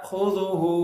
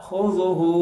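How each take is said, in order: The two takes are said the same way.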